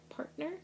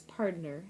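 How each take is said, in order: First: Said in the usual way. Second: Partner drawled as PARD-ner, cowboy style; cowboy accent. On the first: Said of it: "instead of P A R T N E R". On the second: Shown as a demonstration. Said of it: "say it like a cowboy".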